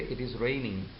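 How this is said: The pitch falls at the end. It is a statement. "so the intonation is downward and it makes a statement"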